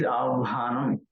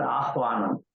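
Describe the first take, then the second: First: "avhanam" with the v before the h; careful "avhanam", v held, then h released; correct "avhanam". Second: "ahvanam" with the h before the v; wrong "ahvanam". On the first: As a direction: say "avhanam" as av-ha-nam. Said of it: "It is avhanam". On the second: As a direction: say "ahvanam" as ah-va-nam. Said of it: "not ahvanam". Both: Shown as a demonstration.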